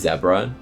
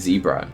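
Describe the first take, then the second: First: It is said the British way. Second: It is said the American way.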